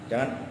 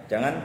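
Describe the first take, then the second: The two takes are said the same way.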